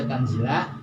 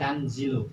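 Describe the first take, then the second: First: The word ends with an 'a' vowel. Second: The word ends with a 'u' vowel. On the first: The word is the object of an omitted verb. "dibaca nasob pakai fathah" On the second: The word is the predicate of an omitted subject. "ini dibacanya doma tanzilu"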